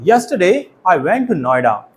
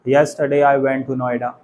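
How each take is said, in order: First: Key words are louder and higher in pitch. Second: All words are said evenly with a flat pitch. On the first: The speaker calls it right. "Voice modulation का use करते हुए बोलना" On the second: The speaker calls it wrong. "Simply बोल सकते हैं ... robotic हो गया ना"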